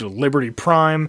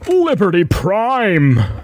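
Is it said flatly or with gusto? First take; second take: flatly; with gusto. First: It is said plainly, without extra energy. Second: It is said loudly, with great gusto.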